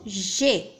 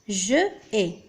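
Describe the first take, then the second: First: The vowel of je is dropped and merged. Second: The vowel of je is pronounced before ai. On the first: The speaker calls it right. "نقول j'ai" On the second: The speaker calls it wrong. "وليس je ai"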